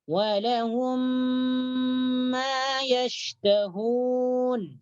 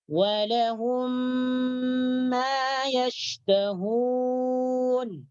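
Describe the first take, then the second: No difference in how they are said.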